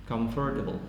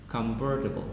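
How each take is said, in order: No difference in how they are said.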